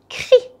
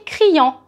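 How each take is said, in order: First: The word ends in a plain 'ee' vowel. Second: The word ends in a nasal 'an' vowel. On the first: The speaker calls it right. "I say crie" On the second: The speaker calls it wrong. "So I do not say criant"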